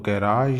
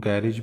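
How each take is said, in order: First: Long open "aa" in garage; garage as "garaaj". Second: Short second vowel in garage; garage as "gairej". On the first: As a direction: stretch the second syllable of garage, "ga-RAAJ". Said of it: "ज़्यादा तो famously इसको". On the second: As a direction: say garage as "GARE-ij", ending short. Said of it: "कुछ लोग इसको गैरेज भी कह देते हैं". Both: Shown as a demonstration.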